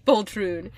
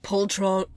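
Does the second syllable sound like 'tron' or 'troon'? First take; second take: troon; tron. First: The second syllable sounds like 'troon'. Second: The second syllable sounds like 'tron'. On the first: The speaker calls it right. "I think it's poltroon" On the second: The speaker calls it wrong. "I probably should have looked up the pronunciation"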